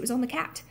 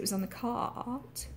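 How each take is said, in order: First: The vowel in 'cat' is a short a. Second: The vowel in 'cat' is a broad ah. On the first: The speaker calls it right. "we say cat" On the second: The speaker calls it wrong. "she doesn't say"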